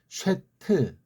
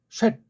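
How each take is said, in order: First: The word ends with an added short vowel. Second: The word ends on a consonant with no vowel. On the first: The speaker calls it wrong. "걔네식으로 하면 쉐트" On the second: The speaker calls it right. "혀가 위에 이빨 뒤 앞쪽에 입천장에 닿는 거죠"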